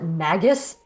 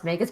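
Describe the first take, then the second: First: The word begins like 'magic'. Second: The word does not begin like 'magic'. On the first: This follows the spelling. The speaker calls it wrong. "I always want to pronounce it Magus because it's spelled like magic" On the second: This is the intended pronunciation. The speaker calls it right. "it's supposed to be like pronounced Magus"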